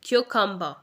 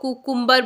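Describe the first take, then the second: First: The word begins with a kyoo sound. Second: The word begins with a plain koo sound. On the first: The speaker calls it right. "ये word है क्यूकम्बर" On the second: The speaker calls it wrong. "इसे कुकुम्बर नहीं बोलना है"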